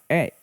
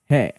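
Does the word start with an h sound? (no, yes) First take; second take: no; yes. First: The word is a bare vowel without h. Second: The word begins with an h sound. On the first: The speaker calls it right. "dibaca dalam pola kalimat e ya" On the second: The speaker calls it wrong. "bukan he"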